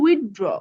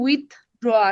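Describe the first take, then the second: First: The two parts are run together without a break. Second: The two parts are said separately with a break. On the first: The speaker calls it right. "আমরা উচ্চারণ করবো" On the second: The speaker calls it wrong. "আলাদা আলাদা উচ্চারণ করলে"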